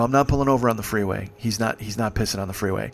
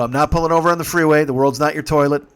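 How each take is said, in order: First: Firm refusal. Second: Firm, raised-voice refusal; retold louder refusal. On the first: Retold or imitated. First refusal to pull over. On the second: Driver refusing to stop on freeway, firmly raised voice. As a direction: put your foot down loudly.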